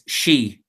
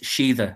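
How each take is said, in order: First: It is one syllable ending in an ee sound. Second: It has two syllables ending in an eetha sound. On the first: This is the modern form. "the modern Irish pronunciation is she" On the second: This is an older form. "an older pronunciation, the older one, is Sheetha"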